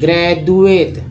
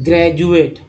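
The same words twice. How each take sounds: First: The middle consonant is a plain D sound. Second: The middle consonant is a J sound. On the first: The speaker calls it wrong. "अब द लायक बोलते हैं" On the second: The speaker calls it right. "ये ज लायक देखिए"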